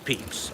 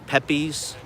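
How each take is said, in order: First: The name is said differently from its spelling. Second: The name is said as it looks spelled. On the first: The speaker calls it right. "I didn't know it was Pepys" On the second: The speaker calls it wrong. "I learned it from fucking reading"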